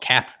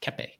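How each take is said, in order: First: The name ends without a final vowel sound. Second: The name ends with a sounded final vowel. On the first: The speaker calls it wrong. "who he likes to call Cap for some reason" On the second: The speaker calls it right. "Pronounce the E at the end"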